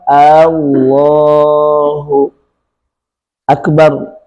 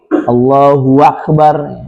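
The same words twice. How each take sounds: First: The first vowel is lengthened at the start. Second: A w sound is added before akbar. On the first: "menambah alif di awal" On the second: "menambah waw di bagian tengah menjelang akhir"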